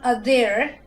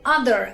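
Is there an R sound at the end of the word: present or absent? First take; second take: absent; present. First: The word ends without a clear R sound. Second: The word ends with a clear R sound. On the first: The speaker calls it wrong. "and not other" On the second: The speaker calls it right. "The A R giving me the R sound, so I say other"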